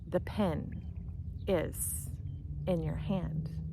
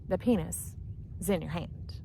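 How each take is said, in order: First: It is said at a normal, unhurried pace. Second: It is said fast, running pen and is together. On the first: It refers to a writing pen held in the hand. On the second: It sounds like it refers to a body part.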